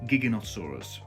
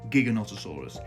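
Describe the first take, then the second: First: The first syllable is a hard 'gig'. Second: The first syllable is a hard 'gig'.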